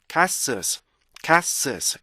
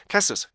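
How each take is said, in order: First: CASTLES with long vowel and sustained tail; "카스오스" stretched as kaa-sulz; full ending rhythm. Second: 카스오스 quick, with the back rhythm lost; "카스오스" with its ending thrown away; wrong castles. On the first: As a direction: give the end of "카스오스" its full beats. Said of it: "뒤에 리듬을 충분히 살려주셔야". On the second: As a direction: squash "카스오스" into short even syllables. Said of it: "이렇게 읽는 게 아니고요". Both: Shown as a demonstration.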